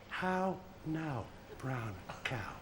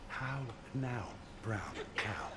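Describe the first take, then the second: First: Soft repeat. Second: Hushed, breathy whisper, much lower and softer. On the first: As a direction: echo the whisper quietly, much softer and lower. Patient repeats the doctor's words. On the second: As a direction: barely breathe the words out like a doctor testing hearing. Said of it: "I'm gonna whisper something to you". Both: Retold or imitated.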